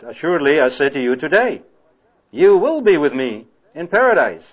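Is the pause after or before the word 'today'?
after. The pause falls after the word 'today'. The promise is made today, with paradise coming later. The speaker calls it right. "if you put the comma after today, then you read it like that"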